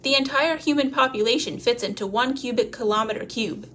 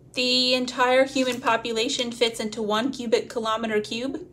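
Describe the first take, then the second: First: The voice falls at the end like a statement. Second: The voice rises at the end like a question. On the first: It sounds like a stated fact. The speaker calls it right. "She corrected her inflection" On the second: It sounds unsure, like asking. The speaker calls it wrong. "The fact came out sounding like a question"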